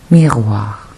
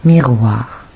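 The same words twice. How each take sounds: The two takes are said the same way.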